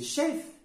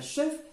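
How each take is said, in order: First: The E is an open 'eh' sound. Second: The E is a weak 'uh' sound. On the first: The speaker calls it right. "se prononce E comme s'ils ont l'accent" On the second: The speaker calls it wrong. "ce n'est pas chef"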